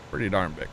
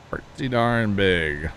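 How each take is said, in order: First: Said in the usual way. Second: "Pretty darn big" drawn out slowly, each word stretched; slow emphatic repeat. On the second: Real, not acted. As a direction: savour it slowly, "darn" leaned on.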